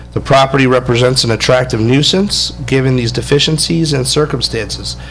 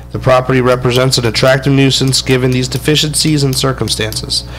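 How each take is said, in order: No difference in how they are said.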